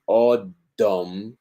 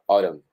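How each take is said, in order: First: The middle consonant is a strong, pressed d. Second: The middle consonant is a quick light tap. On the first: The speaker calls it wrong. "que sería una D muy fuerte, muy, muy plantada sobre el paladar" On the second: The speaker calls it right. "el borde de la lengua"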